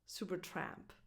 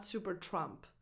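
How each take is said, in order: First: The last vowel sounds like the one in 'man'. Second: The last vowel sounds like the one in 'trump'. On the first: The speaker calls it right. "A as in the word man" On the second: The speaker calls it wrong. "Not Supertrump"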